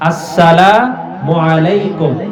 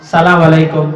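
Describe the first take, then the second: First: The greeting starts with the full opening syllable. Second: The greeting starts without the opening syllable. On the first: The speaker calls it right. "এজন্য আমরা সালাম দিব" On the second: The speaker calls it wrong. "অনেকেই আসসালামু আলাইকুম এভাবে বলে না, বলে সালাম আলাইকুম"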